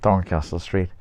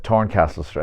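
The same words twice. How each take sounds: First: Said in the usual way. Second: TORNCASTLE with a hard T instead of TH; Dublin pronunciation. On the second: Shown as a demonstration. Author showing his slip into Dublin speech, hard T in Torncastle. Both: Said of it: "I just slipped back into it".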